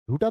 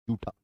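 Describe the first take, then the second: First: झूठा with a breathy aspirated jh sound; contrasting pronunciation. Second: जूठा with a plain unaspirated j sound, not jh; correct pronunciation. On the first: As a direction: push air on the झ in झूठा. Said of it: "झूठा तो असत्य होता है". (झूठा में 'झ' की साँस वाली ध्वनि स्पष्ट) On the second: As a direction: say जूठा with a soft unbreathed ज. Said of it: "झूठा नहीं होता, जूठा होता है". (जूठा का सही उच्चारण, बिना 'झ' की साँस के) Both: Shown as a demonstration.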